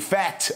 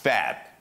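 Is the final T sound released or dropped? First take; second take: released; dropped. First: The final T is clearly released. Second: The final T is not released. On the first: The speaker calls it wrong. "Не fat" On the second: The speaker calls it right. "не произносят Ти в конце слов"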